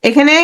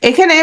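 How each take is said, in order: The two takes are said the same way.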